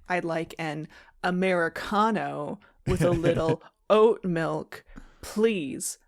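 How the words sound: It is said in a sly, suggestive tone.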